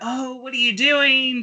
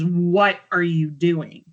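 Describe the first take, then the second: First: It sounds slurred and drunk. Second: It sounds clear and sober.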